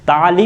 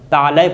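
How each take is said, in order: First: The word ends in an 'ee' sound. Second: The word ends in an 'ay' sound. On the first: The speaker calls it wrong. "ताली उसे नहीं पढ़ा" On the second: The speaker calls it right. "लाम के ऊपर फतह होना चाहिए"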